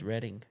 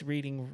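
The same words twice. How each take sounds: First: The first syllable sounds like 'red'. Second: The first syllable sounds like 'reed'. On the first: The speaker calls it right. "It's Reading. Like it's like the past tense of reading" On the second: The speaker calls it wrong. "everybody mispronounces it. They say it's Reading Railroad"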